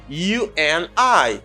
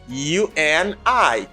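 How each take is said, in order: The two takes are said the same way.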